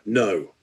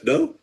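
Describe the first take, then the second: First: The pitch falls and the word is drawn out. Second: The pitch rises and the word is very quick. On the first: A firm, expected denial. "you would expect a strong no to have somewhat a downward intonation and actually take a little bit longer" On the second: A denial that breaks from the usual pattern. "But he goes, no"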